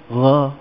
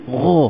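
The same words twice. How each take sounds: First: Light, open "gha" with a flat a; wrong thin GHA. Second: Heavy "gha" rounded toward "gho"; elevated GHA. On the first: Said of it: "Kita tak sebut". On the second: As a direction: say "gha" full, back of tongue raised. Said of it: "sebab tu kita sebut huruf". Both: Shown as a demonstration.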